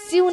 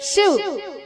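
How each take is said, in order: First: The opening sh sound is soft and weak. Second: The opening sh sound is a strong hiss. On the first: The speaker calls it wrong. "शिव नहीं" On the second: The speaker calls it right. "शक्कर का श"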